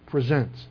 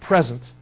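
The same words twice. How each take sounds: First: The stress is on the second syllable. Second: The stress is on the first syllable. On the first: It means to offer yourself to serve. The speaker calls it right. "Put yourself at someone's disposal" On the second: It names a gift or the current time. The speaker calls it wrong. "Not present"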